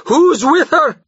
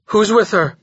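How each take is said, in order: First: Much higher, louder repeat; louder cry. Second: Said in the usual way. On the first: A narrator's reading. Jorgis repeating his demand, crying out. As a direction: push the question harder. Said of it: "he cried again". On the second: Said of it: "Jorgis demanded".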